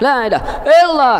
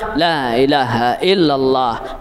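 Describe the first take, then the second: First: The phrase is said loudly at high pitch. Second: The phrase is said softly and calmly. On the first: The speaker calls it wrong. "Suara nak tinggi" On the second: The speaker calls it right. "Biar lembut, biar santai"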